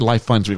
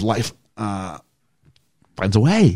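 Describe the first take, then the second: First: It is said smoothly without a pause. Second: There is a hesitant pause after 'Life'.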